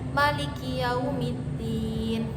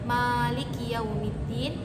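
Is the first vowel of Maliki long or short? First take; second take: short; long. First: The vowel after the m is kept short. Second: The vowel after the m is drawn out long. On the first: "dibaca pendek" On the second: "huruf mimnya itu panjang"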